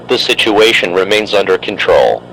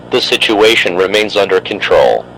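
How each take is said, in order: Both takes have the same delivery.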